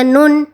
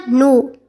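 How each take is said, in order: First: "nun" closed by an n at the end; with final consonant. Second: "nu" left open on the vowel u; final consonant removed. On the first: Korean teacher shows the word with its badjim, "nun" closed on n. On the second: Korean teacher takes the badjim away, "nu" ending openly on u. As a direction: end "nu" on u without an n. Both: Shown as a demonstration. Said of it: "Haddii aynu ka saarno".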